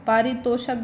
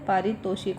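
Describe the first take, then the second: First: No 'i' vowel is heard before final 'k'. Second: An 'i' vowel is heard before final 'k'. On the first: The speaker calls it wrong. "पारितोषक गलत है" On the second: The speaker calls it right. "पारितोषिक होता है"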